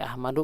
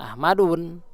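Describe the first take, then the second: First: The word ends on a plain u vowel. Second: The word ends with an added n sound. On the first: The speaker calls it right. "seperti Ahmadu" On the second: The speaker calls it wrong. "bukan Ahmadun"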